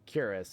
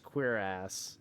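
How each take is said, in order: First: It is said like the word 'curious'. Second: It is said like 'queer ass'. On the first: The speaker calls it wrong. "I am like fairly certain it's not curious" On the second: The speaker calls it right. "I think it's actually supposed to be pronounced queer ass"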